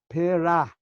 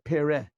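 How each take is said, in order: First: The word ends with an 'ah' vowel. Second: The word ends with an 'eh' vowel. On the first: The speaker calls it right. "Gadel means Pera Nikud Patach" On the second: The speaker calls it wrong. "not Pere"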